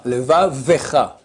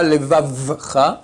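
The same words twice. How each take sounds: First: "levavecha" slowly, a clear short e in "ve"; audible shva. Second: "levavcha" slowed, v closed straight onto ch; shva swallowed. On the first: Rabbi correcting the error, shva clearly heard. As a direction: say "levavecha" slowly, separating ve from cha. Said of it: "Un shvana qu'on entend". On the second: Rabbi demonstrating the error, shva left silent. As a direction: slowly say "levavcha" with no e before ch. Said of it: "Pas levavcha". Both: Shown as a demonstration.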